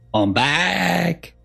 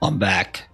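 First: It is said imitating her voice and manner. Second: It is said in the speaker's plain voice.

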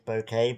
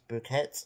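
First: The name sounds like the English word bouquet. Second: The name is said with a Spanish pronunciation. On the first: This is the speaker's own habitual way of saying it. The speaker calls it wrong. "I say it's Boquet" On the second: This is how the locals say it. The speaker calls it right. "but I think it's Bouquet"

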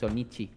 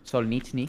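First: The name ends with chi, without an n. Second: The name ends with an n before the final i. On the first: The speaker calls it wrong. "no es chi, no termina en chi" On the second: The speaker calls it right. "Termina en C H N I"

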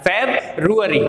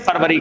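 First: It is said with an r after b. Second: It is said without an r after b. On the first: It follows the spelling so the spelling is remembered. "इसको आपको इसके pronunciation से ही याद रखना है" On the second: This is how people usually say it. "उसका pronunciation फरवरी करते हैं"

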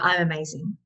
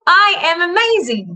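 First: It is said flatly, with little feeling. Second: It is said with strong, powerful feeling.

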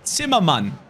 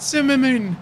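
First: The name is said with a German accent. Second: The name is said with an English accent. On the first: The speaker calls it right. "That's how you say his name. I'm German" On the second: The speaker calls it wrong. "Why am I saying his name in like English?"

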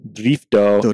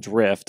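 First: The word ends with an added vowel sound. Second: The word ends on a consonant, no vowel. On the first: This is how it is said in Japanese. "in Japanese they pronounce it differently" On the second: This is how it is said in English. "not drift"

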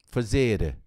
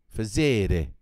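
The two takes are said the same way.

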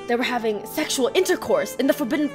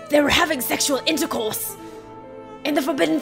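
First: It is read in the speaker's own normal voice. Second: It is read in a put-on old man's voice. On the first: The speaker calls it wrong. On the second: The speaker calls it right.

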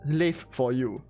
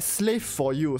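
First: The s sound is weak and swallowed. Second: The s sound is clear and distinct.

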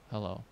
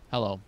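First: The greeting is said in a shy, unsure way. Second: The greeting is said in a plain, neutral way. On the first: "somebody who's a little bit shy and unsure of themselves" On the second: "somebody who's just saying hello normally"

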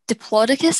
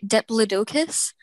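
First: It uses the American pronunciation of the name. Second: It uses the British pronunciation of the name. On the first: "in America, you say Diplodocus" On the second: "the UK, we say Diplodocus"

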